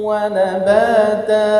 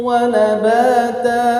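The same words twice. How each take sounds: No difference in how they are said.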